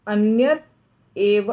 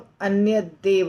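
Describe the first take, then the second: First: The words stay separate with a t sound. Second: The words are joined with a d sound.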